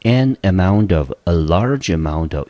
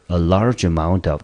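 First: "an amount of" and "a large amount of" said slowly; slow model phrases. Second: "large" stressed in "A large amount of"; phrase for memorising. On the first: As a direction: read both phrases slowly for dictation. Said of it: "所以呢，一个是". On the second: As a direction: lean on "large" and hand them the phrase. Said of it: "这个片语记一下吧". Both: Shown as a demonstration.

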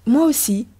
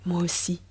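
First: Higher-pitched, formal public reply; polite small talk. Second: Softer, intimate little answer; murmured reply. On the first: Woman answers her secret lover in the street, polite small talk. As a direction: answer like a mere acquaintance. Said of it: "quelques phrases d'une absolue banalité". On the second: Woman secretly answers her lover in the street, soft murmur. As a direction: confide it softly, for one person only. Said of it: "murmura-t-il". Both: A narrator's reading.

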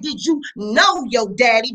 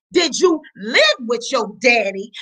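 First: "know" hit hard as the quoted word; stress on know. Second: "live" leaned on, the question he never asked; stress on live. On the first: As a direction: punch "know" to expose the insult. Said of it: "You said". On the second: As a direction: put the weight on "live". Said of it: "notice you didn't say". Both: Shown as a demonstration.

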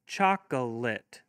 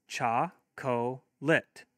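First: Chocolate said slowly, each part clear; slow and careful. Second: Cha-co-lit very slow, three separate beats; split into syllables. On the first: Teacher saying Chocolate slowly for kids to hear. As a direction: draw out Chocolate gently. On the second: Teacher modelling clapping for kids, Cha-co-lit in three beats. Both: Shown as a demonstration. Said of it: "have your kids clap".

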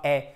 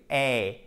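First: "eh" as one pure open vowel; no diphthong. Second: "Eh" as a gliding ay diphthong; clear diphthong. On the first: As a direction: keep "eh" short with no glide. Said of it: "Et pas eh". (« eh » en voyelle pure, sans diphtongue) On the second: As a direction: glide "Eh" from e towards ee. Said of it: "avec une belle diphtongue". (« Eh » en diphtongue, comme « éï ») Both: Shown as a demonstration.

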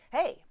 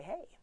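First: Bright, high, louder "hey"; waiter's greeting. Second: Small, high, soft "hey"; young harpist's reply. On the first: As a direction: act out the waiter's pitched-up hey. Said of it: "he looks down at me, and he says". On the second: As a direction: answer quietly with a lifted pitch. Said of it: "And I say". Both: Retold or imitated.

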